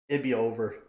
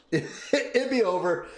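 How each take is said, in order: First: Said in the usual way. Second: "It'd be over" said slowly through a laugh. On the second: Real, not acted. Streamer imagines his son noticed, slow and laughing. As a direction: giggle out "It'd be over" as a dreamy joke.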